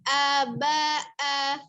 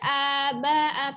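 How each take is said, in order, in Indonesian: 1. Ketiga suku kata punya panjang yang sama. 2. Vokal pertama ditahan lebih lama dari yang lain. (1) "tapi sama" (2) "A-nya tidak tidak panjang, tidak"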